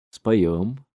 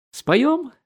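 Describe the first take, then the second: First: Said in the usual way. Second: Very high rising СПОЁМ; eager question. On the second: A narrator's reading. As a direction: ask СПОЁМ as a high-pitched invitation. Invitation to sing, as question. (СПОЁМ — высоко, с вопросом)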